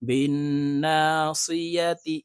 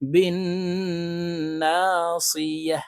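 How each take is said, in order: First: The word ends with a ti vowel ending. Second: The word ends with a silent h sound. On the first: The reading continues without stopping. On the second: The reader stops at this word.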